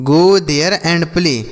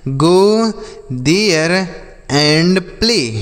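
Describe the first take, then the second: First: Very slow, joined-up model sentence; slow whole sentence. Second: Each word on its own, with pauses between. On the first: Teacher modelling the full sentence very slowly for children. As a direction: drag the whole line out evenly for learners. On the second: Teacher to children, spelling the sentence out word by word. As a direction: set every word apart for the children. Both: Shown as a demonstration. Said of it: "जैसे बोल सकते हैं".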